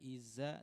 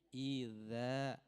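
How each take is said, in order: First: The middle consonant is a buzzing z sound. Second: The middle consonant is a voiced th sound. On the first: The speaker calls it wrong. "bukan iza" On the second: The speaker calls it right. "ujung lidah dengan ujung gigi seri atas"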